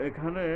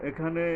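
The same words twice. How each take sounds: The two takes are said the same way.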